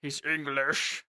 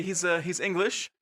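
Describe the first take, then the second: First: Slow, low, soft put-on English accent; Henry's English accent. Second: Said in the usual way. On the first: Player demonstrating the character, slow English accent. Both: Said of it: "I have to do a Henry voice".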